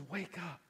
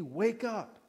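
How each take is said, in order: First: Soft, quiet call to wake; hushed and tender; gentle wake up. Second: Said in the usual way. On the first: Pretend. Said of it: "the heart of Jesus for you that says". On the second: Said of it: "Says to me".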